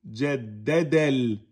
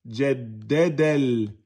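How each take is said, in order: The two takes are said the same way.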